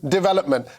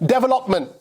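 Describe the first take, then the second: First: The word has a standard pronunciation. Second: The word has an Indian-style pronunciation. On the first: This is how it is normally said. The speaker calls it right. "instead of development" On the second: This is how the speaker's mother says it. The speaker calls it wrong. "development instead of development"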